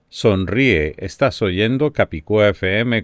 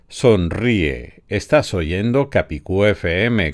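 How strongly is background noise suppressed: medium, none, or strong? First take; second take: medium; none. First: The voice has moderate noise reduction applied. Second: The voice has no noise reduction applied. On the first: "con la función Wave Focus al 50%" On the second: "sin ningún efecto todavía"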